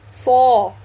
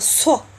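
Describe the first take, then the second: First: The s sound is full, deep and held back. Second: The s sound is thin, pushed forward and weak. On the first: The speaker calls it right. "It is saw, saw, saw. Make sure to listen to the sound inside" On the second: The speaker calls it wrong. "Don't push the sound outside. Don't say it as a so, so, so like this. It will be so weak"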